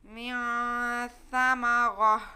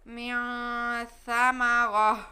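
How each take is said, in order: First: The word ends with a stopped 'h' sound. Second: The word ends with a stopped 'h' sound.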